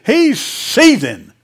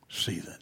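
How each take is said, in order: First: Loud, high, drawn-out emphasis; heated shout. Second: Low, very soft aside; hushed echo. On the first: Preacher describing the furious farmer to his congregation, heated shout. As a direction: shout it slowly, full of heat. Preacher dramatizes the man's fury. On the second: Preacher repeating the word after the outburst, hushed and low. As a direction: drop it to a near whisper. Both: Acted.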